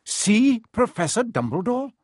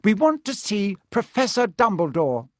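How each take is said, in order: First: High, incredulous echo with rising end; stern teacher, doubting; suspicious repeat. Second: Higher-pitched, determined request; nervously bold schoolgirl; rather brave. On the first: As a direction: question it as something very fishy. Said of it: "as though this was a very fishy thing". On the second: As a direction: speak up to a strict teacher. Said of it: "said Hermione rather bravely". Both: A narrator's reading.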